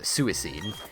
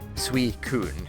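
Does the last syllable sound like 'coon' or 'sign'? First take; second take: sign; coon. First: The last syllable sounds like 'sign'. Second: The last syllable sounds like 'coon'. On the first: The speaker calls it wrong. "for a long time I pronounced it as uh, Suicine, even though that's adding another I that shouldn't be there" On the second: The speaker calls it right. "Very different"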